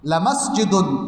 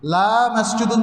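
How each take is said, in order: First: The vowel after the first l is short. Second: The vowel after the first l is long. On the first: It is an emphatic affirmation. The speaker calls it right. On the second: It becomes a negation. The speaker calls it wrong.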